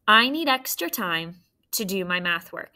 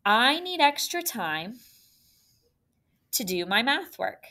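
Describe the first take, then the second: First: "I need extra time to do my math work" read fluently in one natural flow; smooth phrased read. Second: "I need extra time" as one high scoop, then "to do my math work"; phrased in scoops. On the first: Teacher reading the sentence smoothly for students. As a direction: read it smoothly, not choppy. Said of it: "I did two scoops". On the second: Teacher modelling phrasing in two scoops. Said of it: "See if this sounds good". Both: Shown as a demonstration.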